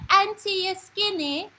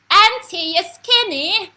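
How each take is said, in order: First: Put-on high, slow child's voice; imitated little grandniece. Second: Very loud, high mimicked child's holler; top of her voice. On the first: Grandniece coming over to question her aunt, high mimicked child's voice. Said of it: "so she come and she said". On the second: Grandniece repeating herself to her aunt, hollering at top voice. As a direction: holler it like a little girl at full volume. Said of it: "On the top of her voice".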